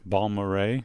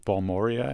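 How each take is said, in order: First: The name ends with a 'ray' sound. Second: The name ends with a 'ree-uh' sound. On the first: The speaker calls it right. "say it the right way" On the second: The speaker calls it wrong. "who I always pronounce as Balmoria"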